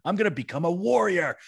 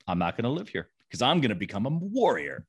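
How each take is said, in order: First: Higher, louder, proud defiance; defiant declaration. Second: Said in the usual way. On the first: Retold or imitated. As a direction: declare it like a rebellious son. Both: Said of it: "And Jeffrey says".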